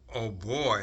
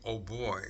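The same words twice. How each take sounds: First: It is said with strong expressive feeling. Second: It is said flatly, without expressive feeling. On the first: The speaker calls it right. "You have to say, ... you have to use the sound, the expression" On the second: The speaker calls it wrong. "you just can't say"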